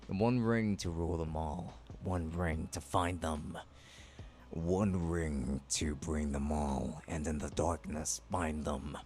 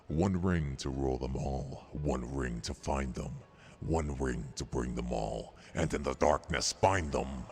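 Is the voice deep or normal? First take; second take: normal; deep. First: It is said in a normal voice. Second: It is said in a deep voice.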